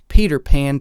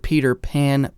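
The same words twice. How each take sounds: First: The P sounds pop with bursts of air. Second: The P sounds are softened by a filter. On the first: "I will speak directly into the microphone, but here are just some quick plosives" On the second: "Here's the first pop filter in this blind comparison"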